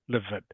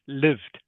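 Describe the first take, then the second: First: The ending is an extra syllable with a vowel. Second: The ending is a single syllable, no extra vowel. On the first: The speaker calls it wrong. "not livid" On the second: The speaker calls it right. "this word here is lived"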